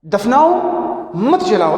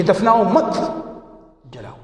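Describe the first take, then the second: First: Rising دفناؤ, pause, then falling مت جلاؤ; دفناؤ held apart as its own command; pause after دفناؤ. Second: دفناؤ مت run together, long pause, then جلاؤ; جلاؤ set apart after a clear gap. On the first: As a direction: break after دفناؤ, keep مت joined to جلاؤ. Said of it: "سکتہ ہونا چاہیے". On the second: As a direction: join مت to دفناؤ, break before جلاؤ. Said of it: "یہ سمجھ جائے کہ". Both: Shown as a demonstration.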